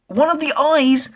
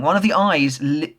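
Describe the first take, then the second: First: High, slow, squealing with disgust. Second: Said in the usual way. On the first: Real, not acted. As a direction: recoil at the gross image, voice jumping up. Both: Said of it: "seriously, that's disgusting".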